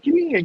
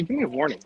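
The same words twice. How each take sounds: First: Sudden high, pleading whine on give me; mock-begging the sky for a warning; exasperated plea. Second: Said in the usual way. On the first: Real, not acted. Annoyed at sudden rain, he pleads with the sky in a high whine. Complaining about sudden downpours.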